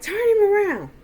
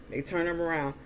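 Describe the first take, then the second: First: Loud, high-pitched yelled command; barked order. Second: Said in the usual way. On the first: Retold or imitated. Uncle ordering men holding the beaten man, barking. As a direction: bark it out like the man in charge. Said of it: "Earl just started barking orders".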